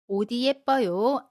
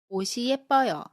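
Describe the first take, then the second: First: The final consonant is carried over as d. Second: The final consonant is carried over as s. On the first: The speaker calls it wrong. "아닙니다" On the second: The speaker calls it right. "시옷으로 발음합니다"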